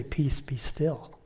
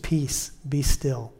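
First: Slow soft whisper, Peace be still; breathed calm command to a restless heart. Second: Slow, calm and tender, be drawn out and falling; calm quiet command to your own heart; gentle peace be still. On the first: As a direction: hush your own heart, slowly. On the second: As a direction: soothe a troubled heart. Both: Shown as a demonstration. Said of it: "tell our hearts that".

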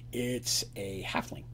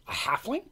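First: Slow, low and soft reveal; hushed, deliberate narration. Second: High, rising shocked question; startled query, pitched up. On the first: A narrator's reading. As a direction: drop low and draw out the answer. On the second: Acted. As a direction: echo it back in disbelief. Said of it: "Zarin's shocked by this".

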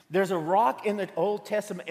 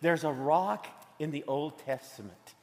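First: Said in the usual way. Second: Softly, like sharing a secret. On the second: Acted. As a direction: lower your voice for the reveal. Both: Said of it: "here's the secret I wanna tell you".

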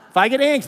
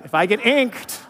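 First: Higher and louder, fired up; repeating it with more fire; emphatic repeat. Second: Said in the usual way. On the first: Shown as a demonstration. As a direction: punch it the second time with rising energy. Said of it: "it just makes me pumped up".

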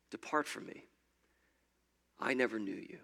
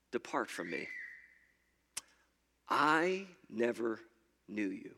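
First: Breathy whisper, the words hanging in the air; whispered echo. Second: Stern Jesus. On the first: Preacher repeating Jesus's rejection, whispered. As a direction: let the verdict echo in a hush. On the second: Jesus turning away the believer, grave and low. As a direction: pronounce the verdict low and final. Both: Retold or imitated.

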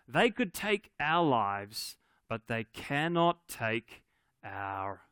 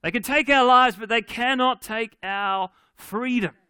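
First: Slow, drawn-out battle speech, held back; a restrained go at a rousing speech, pausing between phrases; William Wallace. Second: Loud, high battle cry; Scottish yell. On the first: Preacher quoting Braveheart to church, slow mock speech. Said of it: "he gives them this speech". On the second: Preacher redoing Braveheart speech for the church, Scottish yell. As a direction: yell it out like a rallying warrior. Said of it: "a good Scottish yell". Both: Acted.

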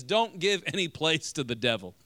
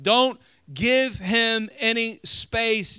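First: Said in the usual way. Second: Slow, weighted stress on "Don't" and "give"; emphatic slow restatement. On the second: Shown as a demonstration. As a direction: lean hard and slow on "Don't give him any space". Preacher restates the verse emphatically.

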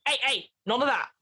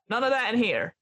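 First: Said in the usual way. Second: Put-on librarian scolding in an American accent. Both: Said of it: "Oh, sorry, American accent".

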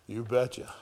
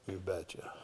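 First: Said in the usual way. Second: Much softer and lower repeat; soft echo. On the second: Acted. Preacher echoes God's answer under his breath. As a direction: let it fall to a murmur.

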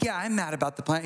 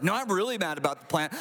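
First: Offhand, quick mild annoyance; mildly mad. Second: Quick, acted insistent annoyance; really mad. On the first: Acted. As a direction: act out only slight irritation, briskly. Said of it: "He's not just like". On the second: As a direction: insist on the anger, hitting "really". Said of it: "He's like".

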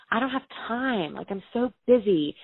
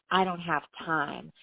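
First: A touch of defensive upset, higher pitch; defensive retort. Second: Slow, mimicking tone; mocking her excuse. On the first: Retold or imitated. To her brother at the kitchen table, defensively upset. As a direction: snap back, feeling cornered. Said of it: "getting really defensive and really upset". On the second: Brother mocking her excuse back at her, slowly. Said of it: "you wouldn't say".

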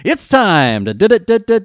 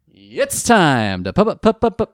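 First: Stuttering on d, climbing high and loud; hammed-up stammer on d; mock stutter on d. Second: Stuttering on pu, rising loud; hammed-up stammer on pu; mock stutter on pu. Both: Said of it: "I got the wrong kind of stutter".

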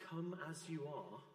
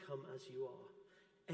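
First: Said in the usual way. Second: Slower and softer, like Jesus inviting you in; soft, slow and tender. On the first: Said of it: "we say". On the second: Shown as a demonstration. Preacher gently voicing Jesus's welcome to the church, soft and slow. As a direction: let it land gently and slowly. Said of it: "because Jesus says".

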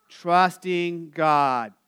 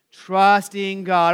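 First: Said in the usual way. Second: Trusting God drawn out slowly and louder; call-and-response cue, slowed. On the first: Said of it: "begins where?". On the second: Shown as a demonstration. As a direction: stretch out Trusting God for the room to echo. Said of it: "let's do that again".

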